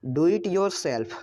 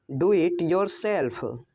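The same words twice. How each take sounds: First: Said in the usual way. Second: Slow, careful "Do it yourself"; slow repeat. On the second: Shown as a demonstration. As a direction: say "Do it yourself" slowly for learners. (धीमी, साफ़ दोहराई) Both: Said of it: "English sentence said twice".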